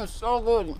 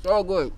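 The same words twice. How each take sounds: First: Strained from the spice. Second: Louder, steady So good; louder recovered exclaim. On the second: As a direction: push out So good with full voice. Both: Real, not acted.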